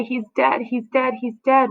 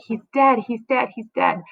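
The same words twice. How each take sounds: First: Higher repeated lament; keen it, each dead raised; nurse lamenting. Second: A high cry that fades to plain; screaming out. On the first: Acted. Nurse wailing to Juliet, higher mock lament. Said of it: "The nurse says". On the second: Shown as a demonstration. Teacher shows how the nurse calls out, fading cry. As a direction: cry it out, then let it sink. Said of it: "She's, she's screaming out".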